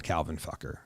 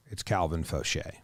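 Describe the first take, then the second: First: "Fucker" said as FUCK-er, the crude mispronunciation; deliberately wrong "Calvin Fucker", rhymes with trucker; wrong pronunciation. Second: "Fauché" said foh-SHAY, stress on the last syllable; the proper French "Fauché", foh-SHAY; correct pronunciation. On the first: Host correcting a pitcher's name, the wrong crude version. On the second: Host correcting a pitcher's name, the proper foh-SHAY. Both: Shown as a demonstration. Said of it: "it's not Calvin Fucker".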